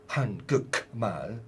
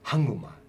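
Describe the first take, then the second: First: The k sound is kept before the m. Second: The k sound blends into a nasal before m. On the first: The speaker calls it wrong. "You don't say Hangukmal. Hangukmal sounds silly" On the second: The speaker calls it right. "the final consonant kiuk, k, is being assimilated"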